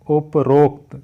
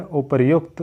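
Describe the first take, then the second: First: "उपरोक्त" as up-rokt, with no y sound; wrong form demo. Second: "उपर्युक्त" as upar-yukt, with a clear y; correct form demo. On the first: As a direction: break "उपरोक्त" before a strong rokt. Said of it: "ये गलत है". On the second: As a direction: sound the r and then yukt in "उपर्युक्त". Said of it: "सही है". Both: Shown as a demonstration.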